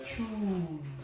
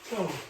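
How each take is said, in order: First: The syllable is long and closed. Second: The syllable is short and open. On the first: The speaker calls it wrong. "Chun is the long" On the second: The speaker calls it right. "is pronounced Cho"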